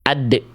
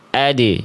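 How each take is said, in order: First: The final d bounce is held back, braked. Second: The final d bounce is released lightly outward. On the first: The speaker calls it wrong. "Ini pantulan yang kurang tepat" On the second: The speaker calls it right. "Yang semestinya insya Allah"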